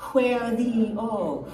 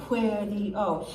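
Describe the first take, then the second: First: "where the O" drawn out slowly, each word held; slow, stretched demo. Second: Said in the usual way. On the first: Shown as a demonstration. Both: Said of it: "So one and two".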